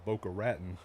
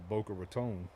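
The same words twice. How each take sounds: First: Raton is said the way it is spelled. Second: Raton is said the accepted local way. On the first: The speaker calls it wrong. "I said it the way it looked" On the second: The speaker calls it right. "it's said Boca Raton"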